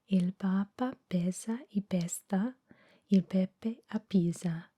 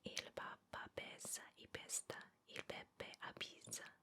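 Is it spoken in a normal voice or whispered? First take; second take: normal; whispered. First: It is spoken in a normal voice. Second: It is spoken in a whisper.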